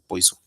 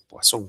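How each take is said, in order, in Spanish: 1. Se dice como la palabra inglesa poison. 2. Se dice con pronunciación francesa. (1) "no Poison, que sería el veneno en inglés" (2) "como es francés, se pronuncia Poisson"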